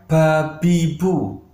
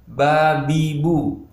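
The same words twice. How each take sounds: First: Slow babibu with a puff of air; wrong airy ba. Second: Slow, clear voiced babibu; correct ba. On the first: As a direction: say "babibu" with breath escaping. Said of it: "bukan babibu". ("babibu" salah berangin) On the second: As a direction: say "Babibu" slow without air. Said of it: "Ini ba sifatnya jahar". ("Babibu" pelan dan jelas) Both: Shown as a demonstration.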